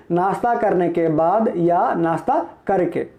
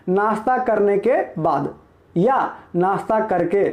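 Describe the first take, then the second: No difference in how they are said.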